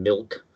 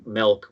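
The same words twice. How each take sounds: First: Said in the usual way. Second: "milk" said with an E, like "melk"; regional E vowel. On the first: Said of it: "a little more E in it than milk". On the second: Shown as a demonstration. Explaining Midwest exceptions to friends, "milk" pronounced "melk". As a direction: swap the short I in "milk" for an E. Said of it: "will tend to have a little more E in it".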